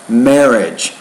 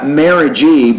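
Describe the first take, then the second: First: The word is said with two syllables. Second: The word is said with three syllables. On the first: The speaker calls it right. "but it's just marriage" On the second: The speaker calls it wrong. "You're trying to create a third syllable there, so it's not marriagey"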